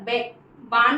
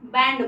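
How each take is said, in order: First: The vowel is a long open 'ah' sound. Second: The vowel is the short 'a' of 'cat'. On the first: The speaker calls it wrong. "हम हमेशा बांड नहीं बोलते हैं" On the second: The speaker calls it right. "बैंड बोलते हैं"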